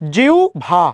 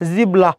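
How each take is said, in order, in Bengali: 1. মাঝখানে bh-এর আগে একটি u গ্লাইড। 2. মাঝখানে b এবং তারপর l। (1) "উচ্চারণ কি? জিউ ভা" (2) "জিব্বা কোনোটাই নয়"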